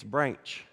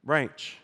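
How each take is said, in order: First: The word is said with a drawn-out Texas drawl. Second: The same.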